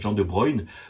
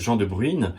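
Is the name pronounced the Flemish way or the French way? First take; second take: Flemish; French. First: The name is pronounced the Flemish way. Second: The name is pronounced the French way. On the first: "un nom flamand, c'est peut-être" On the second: "selon si on le prononce à la française"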